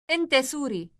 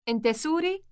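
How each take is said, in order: First: The voice falls at the end. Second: The voice rises at the end.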